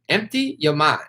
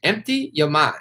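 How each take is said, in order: First: It is said in a put-on foreign accent. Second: The same.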